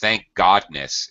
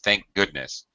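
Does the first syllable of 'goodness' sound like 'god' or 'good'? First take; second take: god; good. First: The first vowel of 'goodness' sounds like 'god'. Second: The first vowel of 'goodness' sounds like 'good'. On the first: The speaker calls it wrong. "Pronounced this as thank godness" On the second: The speaker calls it right. "It's thank goodness"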